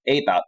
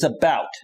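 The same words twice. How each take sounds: First: It is said with a Canadian accent. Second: It is said with an American accent.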